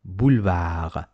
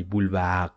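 First: Boulevard with no final d, French r; French boulevard, final d silent. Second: Boulevard with the final d spoken; wrong boulevard. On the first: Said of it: "No, no". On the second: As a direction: sound out the d on boulevard, the mistake. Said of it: "Don't say". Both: Shown as a demonstration.

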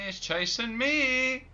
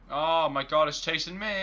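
First: Higher, louder, slow panicked yell; scared horror game streamer. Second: Loud, panicked cry; scared horror game streamer. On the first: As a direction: stretch the cry out in terror. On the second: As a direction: yell it while fleeing. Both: Real, not acted. Monster chasing the player.

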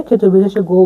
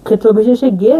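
First: গো said with a rounded o vowel, like "go"; now give it as গো, lips rounded. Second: গে said with a clear e vowel, like "geh". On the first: Teacher showing the other reading of G as গো, rounded. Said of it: "বা গো হিসাবে". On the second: Teacher showing the Malay G as গে, clearly. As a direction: sound the letter as গে, open e. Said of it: "জি এর উচ্চারণটা হবে গে". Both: Shown as a demonstration.

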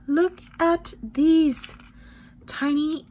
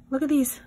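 First: Higher, slow, drawn-out marvelling; awed excitement. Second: Said in the usual way. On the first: Real, not acted. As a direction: stretch it out in delight. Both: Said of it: "repeated with more awe".

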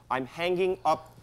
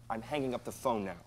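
First: Slow, each word weighted; firm final warning. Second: Said in the usual way. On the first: Acted. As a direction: lay down the last word on "hanging".

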